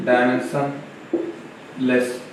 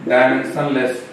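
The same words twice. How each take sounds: First: dimensionless stretched very slowly and said softer; drawn-out term. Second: Said in the usual way. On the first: Shown as a demonstration. Teacher spelling out a key word to students, slow and soft. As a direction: let dimensionless linger, every syllable slow and soft. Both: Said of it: "teacher stressing new term".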